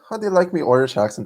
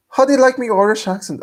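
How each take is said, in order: First: Quick, raised-pitch Irish brogue; brisk comic Irish accent; more Irish accent. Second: High, hammed-up Irish accent. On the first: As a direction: rattle it off in a thicker Irish accent. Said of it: "That's more Irish". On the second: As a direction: pitch a joking Irish brogue way up. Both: Shown as a demonstration.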